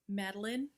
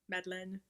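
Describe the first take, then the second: First: The name is said with an English pronunciation. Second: The name is said with a French pronunciation. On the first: This is the guess at how the owner says it. "I think that's how you pronounce it" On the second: This is how it would be said in French. "would be how I pronounce it in French"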